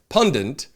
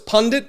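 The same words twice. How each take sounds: First: It has an extra n sound before the t. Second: It is said with one n sound. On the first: The speaker calls it wrong. "but I say it pundit because I guess I'm a dumb shit" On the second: The speaker calls it right. "I know it's pundit"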